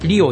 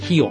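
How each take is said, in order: First: The word begins with a tapped R sound. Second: The word begins with a breathy H-like sound. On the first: The speaker calls it wrong. "リオじゃなくて" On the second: The speaker calls it right.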